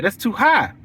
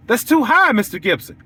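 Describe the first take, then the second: First: Flat falling complaint in a lightly voiced client; client complaining. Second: High, rising "high" like a shocked customer; rising protest. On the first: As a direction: state the price is too high, mildly put out. Client repeats her complaint. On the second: Retold or imitated. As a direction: push the second "high" up in mock disbelief. Client repeats, pitch jumps.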